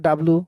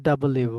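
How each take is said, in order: First: ডাব্লু squeezed into "dablu"; common contracted form. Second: ডাবল ইউ in full, every syllable; correct W name. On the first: Teacher quoting students' way, ডাব্লু as short "dablu". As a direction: run ডাব্লু into two syllables. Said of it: "ডাব্লু বলি অনেকে". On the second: Teacher correcting the class, ডাবল ইউ said in full. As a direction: separate ডাবল from ইউ clearly. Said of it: "শুদ্ধ করে পড়তে গেলে". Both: Shown as a demonstration.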